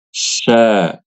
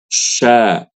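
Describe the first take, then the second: First: The sh sound is made with pouted, rounded lips. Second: The same.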